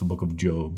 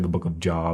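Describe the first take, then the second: First: Job has a long vowel, like 'robe'. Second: Job has a short vowel, like 'job'. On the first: The speaker calls it right. "It's the book of Job" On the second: The speaker calls it wrong. "We don't say the book of Job"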